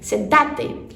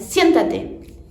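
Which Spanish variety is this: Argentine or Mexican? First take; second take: Argentine; Mexican. First: It is said the Argentine Spanish way. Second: It is said the Mexican Spanish way. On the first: "Já no espanhol argentino muda a sílaba tônica" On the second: "No espanhol é, mexicano, seria siéntate"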